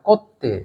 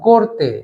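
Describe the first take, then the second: First: The r is dropped and the t is doubled. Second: An r sound comes before a single t.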